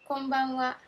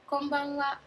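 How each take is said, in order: Both takes have the same delivery.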